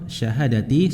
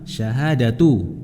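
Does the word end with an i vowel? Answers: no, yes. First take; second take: yes; no. First: The word ends with a final i vowel. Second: The word ends without a final i vowel. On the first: The word stands in apposition to the preceding number. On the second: The word is the predicate of a hidden subject.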